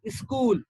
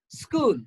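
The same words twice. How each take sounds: First: An extra vowel is inserted into the word. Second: No extra vowel is inserted into the word. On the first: The speaker calls it wrong. "No, that's wrong. You don't have to include or insert another vowel" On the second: The speaker calls it right. "it has got a longer oo sound"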